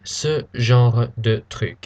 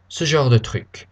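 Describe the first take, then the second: First: Each word is pronounced fully and carefully. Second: The phrase is quick, with 'genre' reduced. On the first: The speaker calls it wrong. "We don't say" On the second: The speaker calls it right. "It's very quick"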